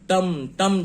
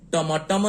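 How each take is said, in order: First: The m has no vowel after it; two syllables. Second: A vowel follows the m; three syllables. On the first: The speaker calls it right. "टम में म आधा ही उच्चारित होता है" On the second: The speaker calls it wrong. "टमटम नहीं कहते हैं हम"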